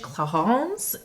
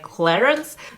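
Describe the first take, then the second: First: The name is said with French pronunciation. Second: The name is said with English pronunciation. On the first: "It's called in French" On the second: "in English I believe that you pronounce it like"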